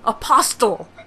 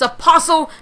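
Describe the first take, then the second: First: The T in the middle is pronounced. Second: The T in the middle is silent. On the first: The speaker calls it wrong. "I pronounced the T again" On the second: The speaker calls it right. "It's apostle"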